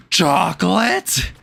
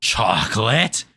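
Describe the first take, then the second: First: Gasp, then higher, slow amazed chocolate; gasping cartoon voice. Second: Slow questioning try at a rasp; cartoon rasp attempt. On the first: Trying a SpongeBob character again, gasping higher and slow. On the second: Trying a SpongeBob character rasp, slow question. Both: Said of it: "I don't know how to do that rasp".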